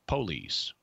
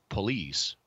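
First: The stress is on the first syllable. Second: The stress is on the last syllable. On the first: "which stresses the first syllable" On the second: "which puts the accents on the last syllable on the ultima"

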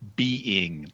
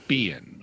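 First: The word is said carefully with both syllables full. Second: The word is said quickly in a reduced form.

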